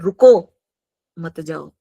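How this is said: There is a pause after the word 'ruko'. The listener is told to stay. "रुको उसके बाद comma लग गया तो मत जाओ"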